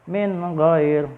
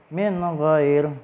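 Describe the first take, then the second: No difference in how they are said.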